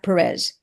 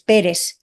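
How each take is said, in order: First: The name is said with an English pronunciation. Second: The name is said with a Spanish pronunciation. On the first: This is how outsiders say it. The speaker calls it wrong. "not Perez" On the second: This is how the name owner says it. The speaker calls it right. "It's Perez"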